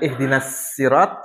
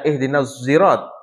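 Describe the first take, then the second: First: The s in 'sirat' is a plain light s. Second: The s in 'sirat' sounds between s and z. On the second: "Antara shad dengan zai"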